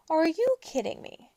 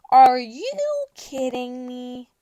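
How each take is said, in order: First: Said in the usual way. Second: Slow disbelief. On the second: Acted. Disbelief, repeated.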